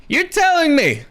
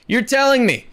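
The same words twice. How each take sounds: First: Higher, disbelieving repeat; incredulous. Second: Said in the usual way. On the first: Real, not acted. Pushing back on a casting rumour, pitched up in disbelief. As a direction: say it again way up in disbelief.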